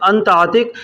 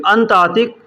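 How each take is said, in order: The two takes are said the same way.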